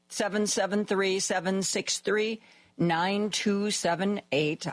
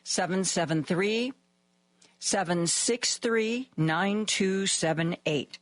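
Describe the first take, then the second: First: The number is said at a quicker pace. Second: The number is said at a slower pace.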